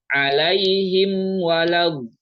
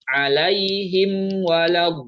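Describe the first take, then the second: The two takes are said the same way.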